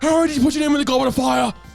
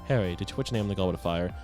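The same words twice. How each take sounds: First: It is said angrily and forcefully. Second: It is said calmly and quietly.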